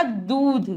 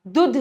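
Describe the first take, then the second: First: "दूध" with a long oo. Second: "दूध" with a short u, dudh; wrong short vowel. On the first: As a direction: hold the vowel in "दूध". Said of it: "बड़े ऊ की मात्रा". ("दूध" में लंबा ऊ) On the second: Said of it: "दूध नहीं होता". ("दूध" को छोटे उ से, दुध) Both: Shown as a demonstration.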